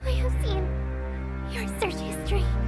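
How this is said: It is said in a cute, slightly disgusted voice.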